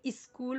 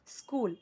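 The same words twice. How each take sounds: First: स्कूल with an extra i in front; स्कूल begun with a vowel before the s; wrong pronunciation. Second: स्कूल starting straight on the s; correct pronunciation. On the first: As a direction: say स्कूल as "is-kool". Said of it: "कुछ लोग स्कूल बोलेंगे तो wrong". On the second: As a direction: say स्कूल as "skool", no vowel in front. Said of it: "तो wrong हो जाएगा". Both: Shown as a demonstration.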